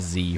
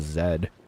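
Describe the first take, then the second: First: The letter is said the American way, zee. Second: The letter is said the Canadian way, zed.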